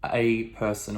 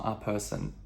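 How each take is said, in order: First: "a" said as ay; full vowel on "a", like the letter A; strong article. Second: "a" said as uh; short neutral vowel on "a"; weak article. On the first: Teacher showing what Chinese can't say, strong article. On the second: Teacher showing what Chinese can't say, weak article. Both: Shown as a demonstration. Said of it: "we can't say".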